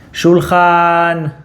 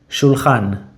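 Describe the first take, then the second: First: The word is called out loudly and stretched. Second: The word is said at a normal volume. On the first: "like you're calling someone from far away" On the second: "Say it normally"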